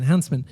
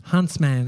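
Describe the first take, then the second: First: "huntsman" with the ending shrunk to "mun"; reduced vowel in -man. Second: "huntsman" with a clear, full "man" at the end; full vowel in -man. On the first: Host settling on the spider's name, "huntsman" said HUNTS-mun. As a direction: say "huntsman" as HUNTS-mun, weak last syllable. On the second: Host trying out the word for spider, "huntsman" said hunts-man. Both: Shown as a demonstration.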